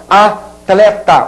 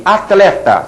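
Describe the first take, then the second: First: Atleta broken as a, pause, tle-ta; drawn-out, divided Atleta; syllable by syllable. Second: Said in the usual way. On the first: Shown as a demonstration. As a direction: say Atleta slowly, keeping T and L together. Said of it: "Você não vai conseguir nunca separar". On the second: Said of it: "alguém erre essa palavra".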